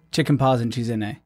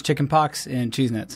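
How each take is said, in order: First: "chicken paws and cheese in a" said as a Pashto phrase. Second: "chicken pox and cheese nits" in plain English words; "chicken pox and cheese nits" with crisp English word endings; English memory aid. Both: Shown as a demonstration. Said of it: "the way I remember it is".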